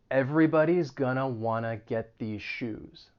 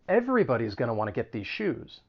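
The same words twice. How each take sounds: First: It is spoken slowly and deliberately. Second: It is spoken at a normal, quick pace.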